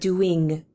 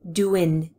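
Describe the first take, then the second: First: The ending is a full -ing sound. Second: The ending is cut short to -in. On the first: "Instead of doing" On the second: "is so often cut short to in"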